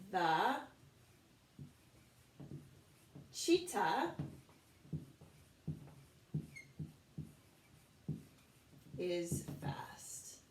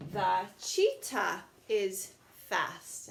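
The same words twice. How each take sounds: First: Slow, broken by long pauses, ending in a whisper; word by word dictation. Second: Very slow, drawn out reading; slow model sentence. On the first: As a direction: say it piece by piece while writing. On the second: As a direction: read the finished sentence slowly to the class. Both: Shown as a demonstration. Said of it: "so let's try that".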